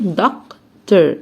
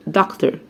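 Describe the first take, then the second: First: "دكتور" slowly as dok, pause, ter; split syllables. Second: Said in the usual way. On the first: Shown as a demonstration. Teacher invites learners to divide it, "دكتور" in separate syllables. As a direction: break "دكتور" in two with a clear gap. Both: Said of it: "يلا قسم".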